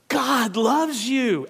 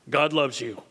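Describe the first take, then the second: First: It is said excitedly, with exclamation. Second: It is said flatly, as a plain fact.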